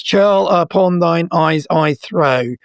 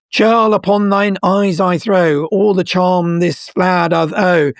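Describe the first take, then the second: First: Slow, each syllable marked; counting seven beats. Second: Reciting Puck's spell. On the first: Shown as a demonstration. Showing the listener the seven syllables, slowly. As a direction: tap out all seven beats. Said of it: "it's seven syllables". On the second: Acted. Quoting Puck's charm to the lovers, slow and incanted. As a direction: chant it like a spell. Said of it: "when Puck is squeezing the magic potion".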